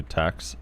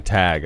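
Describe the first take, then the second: First: Tax said with a hard final ks; tax, ending in a clear ks sound. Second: Tag said with a clear final g; tag, ending on a voiced g. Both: Shown as a demonstration. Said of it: "I'm saying tag".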